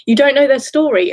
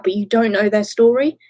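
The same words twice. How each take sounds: First: Louder and higher, stress on know; emotional emphasis. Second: Said in the usual way. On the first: Real, not acted. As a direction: repeat it pleading, hitting "know". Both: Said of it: "I'm getting emotional again".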